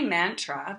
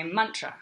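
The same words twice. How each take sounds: First: Mantra with a flat "a" as in man; "mantra" with an open front "a" in the first syllable; Australian pronunciation. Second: Mantra said "MUN-tra"; "mantra" with a short "uh" in the first syllable; Sanskrit pronunciation. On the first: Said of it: "that's how we would say it in Australia". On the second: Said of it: "in Sanskrit you would say mantra". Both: Shown as a demonstration.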